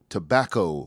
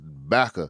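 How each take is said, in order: First: All three syllables are clearly pronounced. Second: The first syllable is dropped. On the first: This is the careful standard way of saying it. "for you people that like to enunciate all the syllables" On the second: This is the local way of saying it. "what we used to call back of heat when I was growing up in South Carolina"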